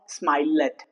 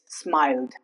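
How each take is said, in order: First: The -ed ending is voiced as an extra syllable. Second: The -ed ending adds no extra syllable. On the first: The speaker calls it wrong. "it's not smiled" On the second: The speaker calls it right. "it's smiled"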